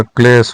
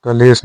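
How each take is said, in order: First: क्लेश as one syllable; correct form. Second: कलेश split as "ka-lesh"; incorrect form. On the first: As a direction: join kl in क्लेश. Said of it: "होता है". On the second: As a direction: put a vowel after k in कलेश. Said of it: "नहीं होता". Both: Shown as a demonstration.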